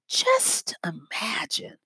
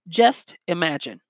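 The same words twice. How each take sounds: First: It is said with a mysterious, drawn-in inflection. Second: It is said as a plain declarative statement.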